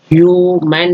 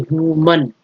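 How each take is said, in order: First: ह्यूमन ending in a full "man"; wrong "man" ending. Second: ह्यूमन ending in a neutral "mun"; reduced "mun" ending. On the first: Teacher showing the mistake, ह्यूमन with open "man" ending. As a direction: stretch ह्यूमन out as "hyoo-man". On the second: Teacher giving the correct word, ह्यूमन with weak "mun" ending. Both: Shown as a demonstration. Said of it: "ह्यूमन नहीं".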